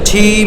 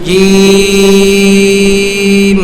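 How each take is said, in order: First: The sound has air audibly escaping with it. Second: The sound is voiced with no escaping air. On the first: The speaker calls it wrong. "অধিকাংশ বাতাস বের হয়, ঝিম হয়, ঝিম হবে না" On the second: The speaker calls it right. "আবার খুব খেয়ালের সাথে জিম"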